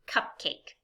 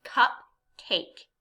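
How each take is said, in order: First: Said in the usual way. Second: CUPCAKE split into two separate beats; syllable by syllable. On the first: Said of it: "Listen to this word". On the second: Shown as a demonstration. Teacher shows chin moving on CUPCAKE, syllable by syllable. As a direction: say CUPCAKE with a gap after cup. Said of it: "how many times my chin moves".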